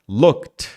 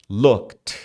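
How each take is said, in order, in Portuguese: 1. A palavra termina em um som de T claro. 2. A palavra termina em um som de T claro.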